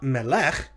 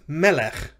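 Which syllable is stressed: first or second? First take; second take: second; first. First: The stress is on the second syllable. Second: The stress is on the first syllable. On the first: The speaker calls it wrong. "Notice it's not melech" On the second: The speaker calls it right. "It's melech"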